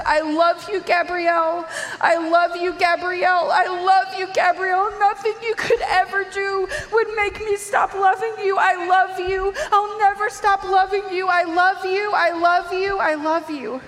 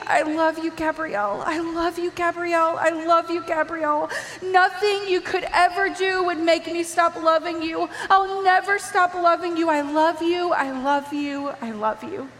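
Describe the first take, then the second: First: High, loud, sobbing declaration of love; weeping. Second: Jesus, tearful love. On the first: Mother holding her fallen daughter, weeping out her love. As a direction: cry it out over and over, voice raised. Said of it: "She's weeping". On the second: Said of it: "And he's saying". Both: Retold or imitated.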